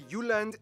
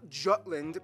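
First: The name is pronounced the Danish way. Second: The name is pronounced the English way. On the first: The speaker calls it right. "I'm going to pronounce the location names in their proper Danish context" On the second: The speaker calls it wrong. "not Jutland"

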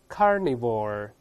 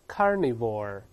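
No difference in how they are said.

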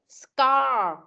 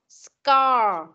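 First: The k sound after the s is pronounced. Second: The k sound after the s is pronounced.

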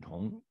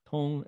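First: The pitch rises from mid to high. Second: The pitch stays high and level. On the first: "second tone" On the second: "first tone"

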